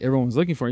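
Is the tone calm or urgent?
calm. It is said in a calm, casual tone.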